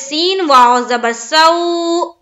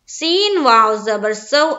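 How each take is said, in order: First: The final syllable is drawn out, not quick. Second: The final syllable is said quickly and softly. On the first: The speaker calls it wrong. "बिल्कुल गलत हो जाएगा" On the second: The speaker calls it right. "जल्द अदा करना है और नरमी के साथ अदा करना है"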